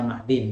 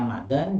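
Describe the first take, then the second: First: The last syllable has the vowel i. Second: The last syllable has the vowel a. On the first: It means the thing taken from it. "bisa dibaca makdin" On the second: It means the place where it is found. "Bisa dikatakan makdan"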